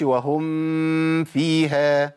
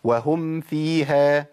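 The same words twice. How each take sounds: First: "وهم فيها" with the meem of "وهم" blurred into "فيها", too much nasal hum, very slow; the common mistake, demonstrated; hidden meem, wrong. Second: "وهم فيها" with the meem of "وهم" held clearly closed, slow and distinct before "فيها"; clear sukoon on the meem. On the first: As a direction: drag "وهم فيها" with a heavy nasal ghunna so the meem vanishes. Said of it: "ما أقولش". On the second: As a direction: say "وهم فيها" slowly, lips closing firmly on the meem with a light nasal. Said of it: "أقول". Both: Shown as a demonstration.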